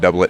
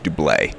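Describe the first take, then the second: First: The word ends with a hard T sound. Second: The word ends without any T sound. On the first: The speaker calls it wrong. "It's not doublet" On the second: The speaker calls it right. "does not use the hard T sound at the end"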